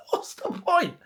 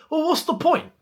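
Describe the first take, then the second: First: High, breaking into a laugh on what's the point; laughing disbelief. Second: High, exasperated what's the point; exasperated question. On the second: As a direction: throw up your hands at a pointless sale. Exasperated at the Disasi sale. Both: Real, not acted.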